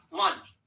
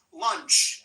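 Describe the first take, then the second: First: Lunch with a short "uh" vowel and a crisp unvoiced ch; clear lunch demo. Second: Lunch with a short "uh" vowel and an unvoiced ch ending; clear lunch demo. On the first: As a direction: repeat lunch, landing the ch cleanly. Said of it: "ends with the unvoiced ch". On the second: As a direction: say lunch: short "uh", end on a sharp ch. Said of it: "the uh vowel sound". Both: Shown as a demonstration.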